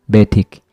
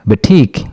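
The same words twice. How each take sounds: First: The stress is on the first syllable. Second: The stress is on the last syllable.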